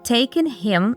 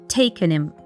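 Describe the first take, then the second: First: The h in him is pronounced clearly. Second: The h in him is dropped.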